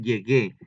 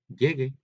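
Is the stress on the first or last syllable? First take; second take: last; first. First: The stress is on the last syllable. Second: The stress is on the first syllable. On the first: I have arrived. "llegué, tiene acento" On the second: That someone may arrive. "Si no le pusiéramos el acento ... sería llegue"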